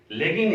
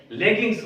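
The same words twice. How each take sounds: First: लेगिंग ending on ng; mistaken singular. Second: लेगिंग्स with a final s; correct plural form. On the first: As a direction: leave the s off लेगिंग. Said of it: "लेगिंग नहीं बोलेंगे". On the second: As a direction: finish लेगिंग्स on an s sound. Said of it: "लेगिंग्स बोलेंगे". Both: Shown as a demonstration.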